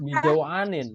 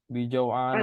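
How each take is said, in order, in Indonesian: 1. Kata ini berakhir dengan bunyi -in. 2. Kata ini berakhir dengan bunyi -a. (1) "bukan bijauanin ya" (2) "tapi bijauah, bijauana"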